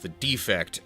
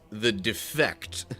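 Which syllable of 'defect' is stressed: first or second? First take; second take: first; second. First: The stress is on the first syllable. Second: The stress is on the second syllable. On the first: It is a flaw. The speaker calls it wrong. "Rather than it being pronounced the defect" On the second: It abandoned its purpose. The speaker calls it right. "it's supposed to be pronounced the defect"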